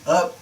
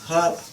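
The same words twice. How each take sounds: First: American accent, the h is silent. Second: British accent, the h is sounded.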